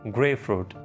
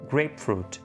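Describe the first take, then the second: First: The 'p' sound before 'fruit' is dropped. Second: A clear 'p' sound comes before 'fruit'. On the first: The speaker calls it wrong. "इसको लोग ग्रे फ्रूट कह रहे होते हैं" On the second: The speaker calls it right. "Basically ये है ग्रेप फ्रूट"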